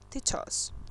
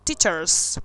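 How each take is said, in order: First: It has a British accent without the R. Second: It has an American accent with the R pronounced.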